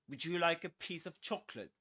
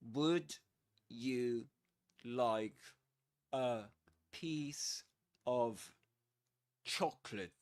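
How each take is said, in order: First: It is said fast with words run together. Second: It is said slowly with separate words.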